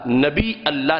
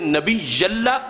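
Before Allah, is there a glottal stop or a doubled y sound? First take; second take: glottal stop; doubled y. First: A glottal stop ends nabi before Allah. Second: A doubled y sound links nabi to Allah. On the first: The speaker calls it wrong. "मुझे लफ्ज नबी जिसके आखिर में हमजा है उससे ना ताबीर करो" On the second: The speaker calls it right. "बल्कि जिसके आखिर में दो या है मुशद्दद उसके साथ मुझे बुलाओ"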